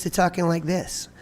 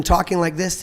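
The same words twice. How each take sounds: First: Smaller sound at the front of the mouth; tongue pushed behind the teeth; voice pushed forward. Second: Said in the usual way. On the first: Shown as a demonstration. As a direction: talk from the front of the mouth, not the throat. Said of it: "push everything to the front of my mouth". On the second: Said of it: "pushed my tongue all the way behind my teeth".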